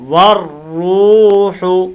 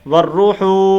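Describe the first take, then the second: First: The middle syllable's vowel is drawn out long. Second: The middle syllable's vowel is kept short. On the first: The speaker calls it right. "इसको लंबा करना है और इस हा को लंबा नहीं करना" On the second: The speaker calls it wrong. "इसको लंबा नहीं करते ... ये गलत है"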